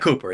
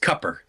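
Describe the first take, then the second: First: The first vowel is a long 'oo' sound. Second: The first vowel is a short 'uh' sound. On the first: The speaker calls it wrong. "it's not Cooper" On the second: The speaker calls it right. "it's Cupper. That's what they call him, Cupper. That's the uh, the Southern accent"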